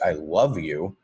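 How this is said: The word love carries the stress. The feeling itself is strong and powerful. "change the emphasis to the word love"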